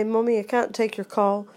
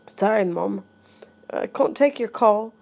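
First: Said in the usual way. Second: Put-on British accent, long "ah" in can't; lightly put-on British accent. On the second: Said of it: "I'm talking with a British accent".

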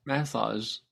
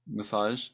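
First: Massage with a full first vowel, "MASS-ahzh"; first pronunciation. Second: Massage with a weak first syllable, "muh-SAHZH"; second pronunciation. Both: Shown as a demonstration. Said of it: "What do you say?".

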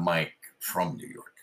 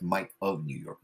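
First: "from" picked out as the wrong word; stress on "from". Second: "of" given slight weight in the name; stress on "of". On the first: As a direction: lean on "from" to contrast it. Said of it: "I'm not from". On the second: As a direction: lean lightly on the word "of". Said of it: "but I'm of here". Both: Shown as a demonstration.

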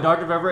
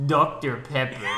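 First: Said in the usual way. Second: Imitating a friend's Russian accent; mock Russian accent. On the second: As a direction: say it in a hammed-up, bad Russian accent. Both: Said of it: "he said in a Russian accent".

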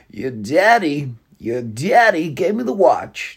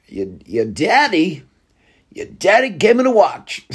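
First: Very slow, drawn-out mock Walken; half-hearted Walken impression, slowed right down; second Christopher Walken try. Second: Slow, halting, lightly done Walken drawl; a loose attempt at Walken's pauses; terrible Walken impression, barely changed; Christopher Walken impression. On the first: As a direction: stretch each word like a lazy Walken. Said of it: "That's a terrible impression". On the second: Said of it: "Christopher Walken impression". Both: Shown as a demonstration.

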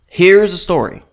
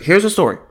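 First: "story" said with pointed emphasis; slightly higher, deliberate "Here's the story", leaning on "story"; stress on STORY. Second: Said in the usual way. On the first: Real, not acted. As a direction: make "story" stand out pointedly. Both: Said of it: "Emphasis on story".

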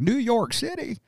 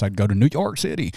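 First: High, soft mock cowboy cry of New York City; quoting the salsa commercial. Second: Put-on a light New York accent on New York City; a hint of a New Yorker's twang. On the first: Quoting the Pace Picante ad to friends, high soft mock outrage. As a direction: echo the Pace ad's shocked cowboys, pitched high and soft. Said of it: "seen the commercial for, uh, Pace Picante". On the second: Joking about salsa, a mild New York accent. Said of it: "Why was that your New York accent?".

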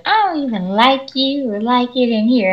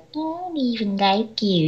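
First: Higher-pitched mock student complaint; whiny student. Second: Slow, high, soft mimicking whine; immature mocking. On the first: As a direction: imitate a student throwing a tantrum. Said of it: "And she's like". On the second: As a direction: parrot the student back like a baby. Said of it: "that's what you sound like".

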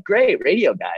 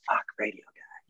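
First: "Great, radio guy." said higher and louder, glad; pleased greeting. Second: "Fuck, radio guy." said much softer, deflated; fed-up groan. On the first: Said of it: "like, awesome". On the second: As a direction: mutter it with dread at the radio guy, dropping the volume. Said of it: "like, a total nightmare". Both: Shown as a demonstration.

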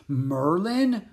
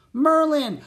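First: Higher, wondering, half-disbelieving question; breathed amazement. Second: Very high, loud, happy exclamation; joyful greeting. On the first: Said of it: "breathed Jack". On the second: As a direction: call the name out with delight. Annie joyfully greets her friend. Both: A narrator's reading.

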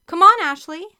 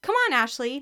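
First: High, loud rallying call to a teammate; raised, eager shout of encouragement. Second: Moderately raised, higher urging call; lightly acted yell, a bit higher; mild yell. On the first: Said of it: "Carrie called". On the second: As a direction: urge a teammate on with a restrained yell. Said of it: "Mary Kate yelled". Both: A narrator's reading.

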